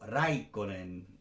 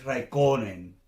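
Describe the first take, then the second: First: The stress is on the first syllable. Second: The stress is on a later syllable. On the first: The speaker calls it right. "O Raikkonen" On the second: The speaker calls it wrong. "no es Raikkonen"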